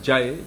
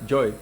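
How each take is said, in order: First: The vowel sounds like the a in father. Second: The vowel sounds like o, as in joy. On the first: "instead of Jai" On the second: "it would be joy"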